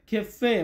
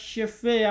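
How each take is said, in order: First: The word begins with a throaty kh sound. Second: The word begins with an sh sound. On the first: The speaker calls it right. "তো এটা হবে খেফে" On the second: The speaker calls it wrong. "অনেক সময় আমরা শেফে এমনটা উচ্চারণ করি"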